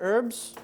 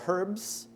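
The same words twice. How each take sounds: First: The word starts with a vowel, no H sound. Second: The word starts with an audible H sound.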